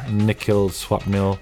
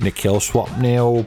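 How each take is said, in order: First: It is said in his own normal voice. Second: It is said in a put-on, posh-sounding voice.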